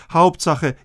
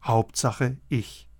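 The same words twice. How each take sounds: First: Hauptsache hit loud and high; emphatic. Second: Hauptsache, ich fading to almost nothing; quiet. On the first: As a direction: punch out Hauptsache with force. Repeated list, rising emphasis. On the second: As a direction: let Hauptsache, ich drop to a hush. Repeated list, final soft take. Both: Acted.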